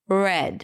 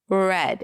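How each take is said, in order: The two takes are said the same way.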